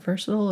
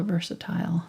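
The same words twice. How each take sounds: First: "versatile" with a reduced final syllable, VUR-suh-tul; VERSATILE ending like "-tul". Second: "versatile" with its last syllable rhyming with mile; VERSATILE ending like "tile". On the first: Painter asking herself which way to say it, "versatile" as VUR-suh-tul. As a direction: say "versatile" to rhyme with turtle, short last syllable. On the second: Painter offering the other option, "versatile" as VUR-suh-tile. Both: Shown as a demonstration. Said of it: "Is it versatile or versatile?".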